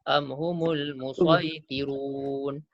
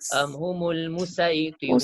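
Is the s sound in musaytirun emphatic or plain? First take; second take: emphatic; plain. First: The s in musaytirun is a heavy emphatic sound. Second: The s in musaytirun is a light plain sound. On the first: This is the preferred reading. "Jadi sod lebih utama kita baca" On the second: This is an allowed alternative reading. "Tapi boleh juga baca dengan sin"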